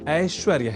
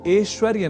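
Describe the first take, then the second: First: The first vowel is an 'ai' sound. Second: The first vowel is a plain 'e' sound. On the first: The speaker calls it right. "संस्कृतानुसार शुद्धतम स्वरूप" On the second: The speaker calls it wrong. "ऐ को ए इस रूप में भी समझने की दुष्प्रवृत्ति"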